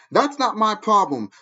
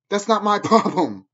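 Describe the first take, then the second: First: Each word of "That's not my problem" set down slowly, "That's" leaning hardest; slow it right down and mean every word; slow firm repeat. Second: A laugh breaking through the brush-off; laughing dismissal. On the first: Repeats dismissal deliberately. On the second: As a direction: scoff it away with a laugh. Laughs off critics mid-rant. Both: Real, not acted.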